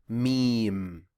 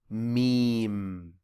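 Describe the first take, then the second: The two takes are said the same way.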